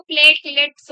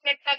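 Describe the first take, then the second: First: प्लेटलेट्स said in full with both lets; teacher correcting the class with a full प्लेटलेट्स; correct pronunciation. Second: प्लेटा said as two syllables, the lets dropped; imitating students who say प्लेटा; wrong pronunciation. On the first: Shown as a demonstration. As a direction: give all three syllables of प्लेटलेट्स clearly. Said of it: "वो बेटा प्लेटा नहीं है". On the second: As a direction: mimic the common slip प्लेटा instead of प्लेटलेट्स. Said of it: "जैसे कुछ लोग प्लेटा बोलते हैं".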